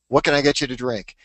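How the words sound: It is said in a low-key, understated way.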